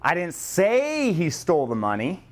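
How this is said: The stress is on the word say.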